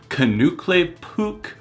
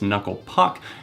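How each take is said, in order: First: An extra syllable is added and 'Puck' becomes 'Pook'. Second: Two plain syllables, with 'Puck' rhyming with 'duck'. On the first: The speaker calls it wrong. "the pronunciation that he mispronounces it as" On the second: The speaker calls it right. "Obviously, it's Knuckle Puck"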